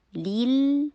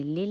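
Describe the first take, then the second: First: لیل higher and louder, long "ee"; held, clean "ee" in لیل; clear ee sound. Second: لل with a short lax "e"; mispronounced "lel" for لل; wrong short vowel. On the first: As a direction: say لیل as "leel". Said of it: "میں بول رہی ہوں لی". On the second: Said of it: "میں نے لل نہیں بولا". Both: Shown as a demonstration.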